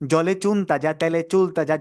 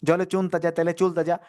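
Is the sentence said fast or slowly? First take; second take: slowly; fast. First: The sentence is said slowly. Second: The sentence is said fast. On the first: "প্রথম ধীরে ধীরে" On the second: "এরপর দ্রুত"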